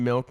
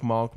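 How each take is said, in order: First: Said in the usual way. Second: "malk" with an open ah vowel; hybrid vowel. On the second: Shown as a demonstration. Co-host mimicking his friend's milk, rhyming "malk" with talk. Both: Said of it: "you're saying it in a hybrid".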